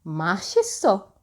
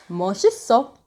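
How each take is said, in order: First: 맛있어 with an open "a" in the first syllable; "delicious" pronunciation. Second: 멋있어 with the rounder "eo" vowel in the first syllable; "cool" pronunciation. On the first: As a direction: say 맛있어 opening on a clear "ma". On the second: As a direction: say 멋있어 opening on "meo", not "ma". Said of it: "means you're cool". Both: Shown as a demonstration.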